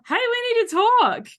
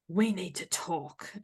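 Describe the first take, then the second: First: It sounds cheerful and friendly. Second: It sounds ominous and threatening.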